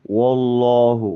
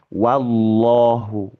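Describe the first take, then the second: First: The first vowel sounds dark and rounded, like o. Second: The first vowel sounds light and open, like a. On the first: The speaker calls it wrong. "kepengaruhnya jadi" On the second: The speaker calls it right. "tetap wah"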